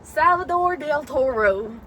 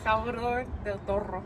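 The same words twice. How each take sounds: First: Slow, stretched Salvador Del Toro; drawn-out delivery of Salvador Del Toro; like yesterday's take. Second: Salvador Del Toro with strongly rolled R's. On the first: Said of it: "Like how you said it yesterday". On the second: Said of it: "You roll your R's, like, so aggressively". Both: Shown as a demonstration.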